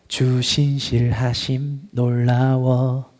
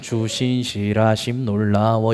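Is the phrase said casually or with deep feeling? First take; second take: deep feeling; casually. First: It is said slowly with deep, heartfelt feeling. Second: It is said casually, without much feeling. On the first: The speaker truly means the words. The speaker calls it right. "정말 깊은 마음으로 찬양해야 돼요" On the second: The words are said without thinking about them. The speaker calls it wrong. "그냥 주신실하심 놀라워 이게 아니라"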